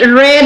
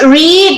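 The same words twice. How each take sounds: First: The vowel is short, like in 'bed'. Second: The vowel is long, like in 'bead'. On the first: It is the simple past form. "different pronunciation in simple past" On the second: It is the present form. "it's read"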